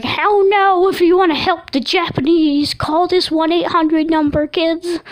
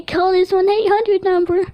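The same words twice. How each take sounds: First: High, loud cartoon host voice for the killer apple; sing-song kids' TV host pitching a hotline; creepy kids-show apple. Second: High, laughing echo of the cartoon host voice; mimicking the apple. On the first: Killer apple on a kids' show addressing children, high cartoon voice. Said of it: "it was like". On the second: Dreamer joking to his family in the apple's high voice. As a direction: repeat the hotline line as a joke, pitched up. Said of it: "I was like".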